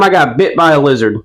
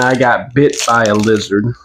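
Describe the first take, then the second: First: It is said with natural, lively intonation. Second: It is said in a flat, robotic monotone. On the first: The speaker calls it right. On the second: The speaker calls it wrong.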